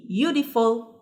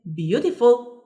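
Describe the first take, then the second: First: "Beautiful" broken after the first sound, beau-tiful; split into syllables. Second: Said in the usual way. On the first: Shown as a demonstration. Teacher showing learners a long adjective, "Beautiful" split by syllable. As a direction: say "Beautiful" in pieces with a small gap.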